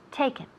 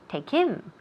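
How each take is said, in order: First: Take is stressed and him is short and linked. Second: Him is stressed and said separately from take. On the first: The speaker calls it right. "we connect them uh, with pronunciation as if it were just one word" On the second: The speaker calls it wrong. "and put the emphasis on him"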